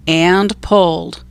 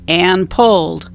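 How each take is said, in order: Both takes have the same delivery.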